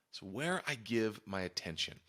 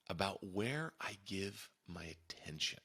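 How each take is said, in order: First: Said in the usual way. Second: Slow breathy whisper of the key phrase; hushed, deliberate whisper. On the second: Shown as a demonstration. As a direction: lean in and whisper it slowly like a secret. Repeats key phrase, first whispered.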